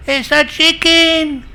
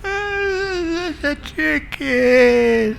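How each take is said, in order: First: Very high, slow, drawn-out yell; shouted squabble. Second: Hammed-up, high-pitched, very drawn-out wail; mock tearful whine. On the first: Acted. Wife yells back at her husband, stubbornly furious. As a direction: yell it stubbornly, stretching each word. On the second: Wife with watery eyes insists, comically close to tears. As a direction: whine it as if about to burst into tears. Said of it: "She was about to burst into tears".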